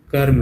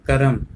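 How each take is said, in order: First: Said in the usual way. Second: करम said ka-ram; misspelt reading. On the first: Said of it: "जबकि होता कर्म है". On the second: Shown as a demonstration. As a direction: sound a vowel between र and म in करम. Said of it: "ये क्या लिखा है". (करम को क-रम पढ़ें)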